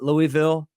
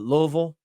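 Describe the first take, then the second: First: It is pronounced the non-Southern way. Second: It is pronounced the Southern way. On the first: The speaker calls it wrong. "not Louisville" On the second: The speaker calls it right. "That's how you say it in the South"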